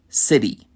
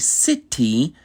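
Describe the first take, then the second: First: The middle T sounds soft, like a D. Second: The middle T is a crisp, clear T. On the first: "we would say city" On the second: "how they would say city"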